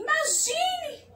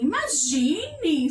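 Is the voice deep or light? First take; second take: light; deep. First: It is said in a light, small voice. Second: It is said in a much deeper voice.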